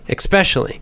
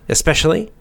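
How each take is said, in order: First: It is said with a small k sound. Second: It is said without a k sound. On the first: "or you can put the little k, the little kind of K sound in there" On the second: "You can say especially if you want to"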